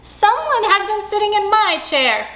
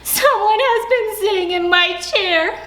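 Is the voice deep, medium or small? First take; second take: medium; small. First: It is said in a middle-sized voice. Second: It is said in a tiny, small voice.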